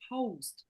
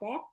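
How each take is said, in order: First: The s sound before the t is pronounced. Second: The s sound before the t is dropped. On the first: The speaker calls it right. "No, post" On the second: The speaker calls it wrong. "No, not pot"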